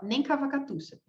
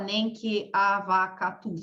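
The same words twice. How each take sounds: First: The words run together quickly as one unit. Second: Each word is said separately and slowly.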